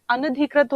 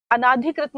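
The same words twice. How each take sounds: First: अनधिकृत with a short a after न; अनधिकृत read as the correct spelling; correct form given. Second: अनाधिकृत with a long aa after न; अनाधिकृत read as the wrong spelling; wrong form read out. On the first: Teacher gives the correct form अनधिकृत. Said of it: "अनधिकृत होता है". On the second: Teacher reads out the wrong form अनाधिकृत. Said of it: "अनाधिकृत नहीं होता है". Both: Shown as a demonstration.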